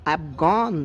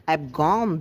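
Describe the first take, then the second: The two takes are said the same way.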